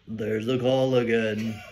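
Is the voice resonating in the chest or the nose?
chest. It is said with a chest voice.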